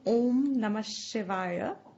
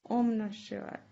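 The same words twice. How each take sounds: First: It is said aloud at normal volume. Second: It is said very softly, barely audible. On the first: "the lips are heard" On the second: "It's so soft"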